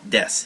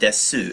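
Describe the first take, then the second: First: The word ends on s with no final vowel. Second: The word ends with a clear final u vowel. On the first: The speaker calls it right. "it's pronounced des" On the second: The speaker calls it wrong. "not desu"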